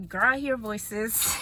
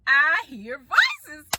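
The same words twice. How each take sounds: First: Said in the usual way. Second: Dramatic declaration. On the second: Acted. Dramatic repeat of the confession.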